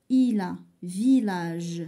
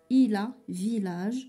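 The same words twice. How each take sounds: First: "Il a village" read slowly, "Il" stressed with a clear l; slow careful reading. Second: Said in the usual way. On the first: Shown as a demonstration. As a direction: spell out "Il" slowly, sounding the l. (lecture lente de "Il a village", le l de "Il" bien prononcé) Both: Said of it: "فشي كلمات كنسمعو ال".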